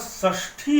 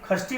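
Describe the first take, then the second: First: The word begins with a retroflex sh sound. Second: The word begins with a kh sound. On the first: The speaker calls it right. "वह षष्ठी है" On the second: The speaker calls it wrong. "खष्टी नहीं है, यह स है"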